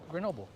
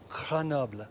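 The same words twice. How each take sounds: First: The name is said with an English pronunciation. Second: The name is said with a French pronunciation. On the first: "if you're just a normal English-speaking average person, we just say" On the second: "The proper way you say it in French is"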